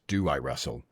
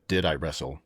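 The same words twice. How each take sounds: First: "Do" picked out as the correction; stress on Do. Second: "Did" picked out, quoting the question back; stress on Did. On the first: Correcting the host's question, stress on "Do". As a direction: lean on "Do" to insist on present tense. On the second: Correcting the host's question, stress on "Did". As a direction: lean on "Did" to query the past tense. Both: Shown as a demonstration. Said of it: "The correct question is".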